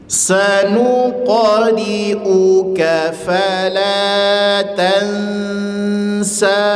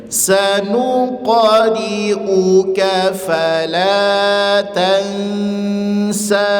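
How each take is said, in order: Both takes have the same delivery.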